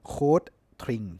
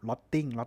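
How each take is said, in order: First: It is said in a German-style pronunciation. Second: It is said in a Thai-style pronunciation. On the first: This is how it sounds in the original language. "ถ้าออกเสียงตามสำเนียงดอยช์แลนด์หรือภาษาเยอรมันจริงๆ" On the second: This is how people commonly call it. "ก็เรียกมันมาอย่างนั้นตลอด"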